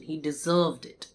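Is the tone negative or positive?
positive. It is said in an approving, positive tone. The person earned the good recognition. "I can say it positively as well"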